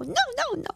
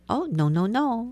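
First: It is shouted angrily and loudly. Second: It is said gently and calmly.

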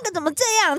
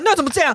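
First: It is said in a high, cutesy voice. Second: It is said in a harsh, fierce tone. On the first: It is playful, affectionate teasing. The speaker calls it right. "我是还是用一个夹子音的方式" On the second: It sounds like an angry complaint. The speaker calls it wrong. "你不要用一个这么凶的语气说"

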